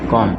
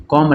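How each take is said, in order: First: "कॉम" with no b after m; silent b. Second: "कॉम्ब" with a b after the m; wrongly sounded b. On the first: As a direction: end "कॉम" on a plain m. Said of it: "बी को नहीं पढ़ेंगे". ("कॉम" का बी silent रखें) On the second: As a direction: pronounce the final b of "कॉम्ब". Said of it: "नहीं पढ़ेंगे". ("कॉम्ब" में ब का उच्चारण करें) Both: Shown as a demonstration.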